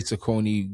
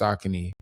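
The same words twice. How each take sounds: First: The brand name is said the old familiar way. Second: The brand name is said the official way. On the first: This is how people said it growing up. The speaker calls it wrong. "We used to say Saucony growing up" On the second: This is how the company says it. The speaker calls it right. "it's really pronounced Saucony"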